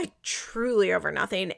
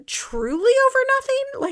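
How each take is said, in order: First: Said in the usual way. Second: "over nothing" thrown way up high in disbelief; exasperated emphasis. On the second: Real, not acted. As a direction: squeal "Truly over nothing" high and incredulous.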